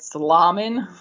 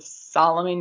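First: The stress falls on a later syllable. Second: The stress falls on the first syllable. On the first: "putting the emphasis on the wrong syllable" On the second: "instead of Solomon"

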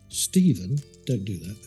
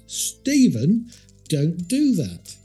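First: It is said at a calm, normal volume. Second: It is said louder and more sternly.

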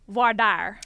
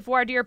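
First: It is said in a Texas pronunciation. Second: It is said in a standard pronunciation.

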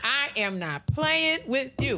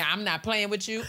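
First: It is said slowly, with deliberate cadence. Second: It is said at a normal pace.

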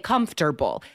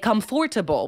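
First: The middle syllable is dropped entirely. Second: The middle syllable is fully pronounced. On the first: The speaker calls it right. "we say comfortable. That or it totally disappears" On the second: The speaker calls it wrong. "we don't say comfortable"

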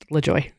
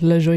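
First: The name is said with an American accent. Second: The name is said with a French accent. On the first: "we Americanized it" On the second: "you could pronounce it with a French accent"

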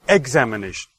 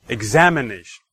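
First: The stress falls on the first syllable, 'ex'. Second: The stress falls on the second syllable, 'am'. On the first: "if I put the stress on the first syllable" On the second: "the second"

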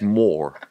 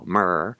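First: The vowel is a rounded 'or' sound. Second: The vowel is an r-colored 'ur' sound. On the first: The speaker calls it right. "It's more" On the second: The speaker calls it wrong. "It's not M-E-R-R-R, Murr"

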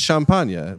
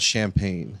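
First: It is said with a French pronunciation. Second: It is said with an English pronunciation. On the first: The speaker calls it right. "in French, it's champagne" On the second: The speaker calls it wrong. "we pronounce it wrong"

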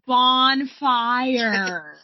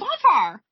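First: It is said slowly. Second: It is said fast.

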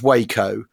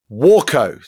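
First: The first vowel sounds like in way. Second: The first vowel sounds like in water. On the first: It names the town in Texas. The speaker calls it wrong. "not Waco, like Waco, Texas" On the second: It names the aircraft company. The speaker calls it right. "like the first syllable pronounced as in water"

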